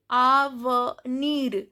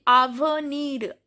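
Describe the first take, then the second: First: Slow "avenir" broken into a-ve-nir; "avenir" spelt out slowly by ear; pronounced final R. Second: Said in the usual way. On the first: Shown as a demonstration. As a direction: say "avenir" syllable by syllable, sounding the R. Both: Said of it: "here R is pronounced".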